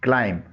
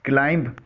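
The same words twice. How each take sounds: First: क्लाइंब said as "klaim"; silent b. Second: क्लाइंब with the final b sounded; wrong-way क्लाइंब, ending on a hard b; common mispronunciation. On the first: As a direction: say क्लाइंब ending on m, no b. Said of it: "इसमें बी silent है।". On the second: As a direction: say क्लाइंब as "klaimb". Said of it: "जो गलत है।". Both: Shown as a demonstration.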